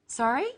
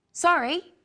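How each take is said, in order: First: "Sorry?" with a rising question tune; a learner's echo of the question. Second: "Sorry?" higher and louder as a question. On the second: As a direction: ask to hear it again. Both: Shown as a demonstration. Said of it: "Practice with me the different ways".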